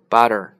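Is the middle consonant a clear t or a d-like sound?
D-like. The middle consonant sounds like a d. "但美国人呢发成butter"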